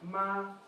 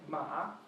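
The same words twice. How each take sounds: First: The pitch stays high and level. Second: The pitch dips down and then rises. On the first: "The first one stays up" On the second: "The third one goes down and up"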